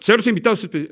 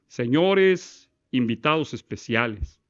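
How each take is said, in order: First: It is said fast, with a stumble. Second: It is said slowly and calmly.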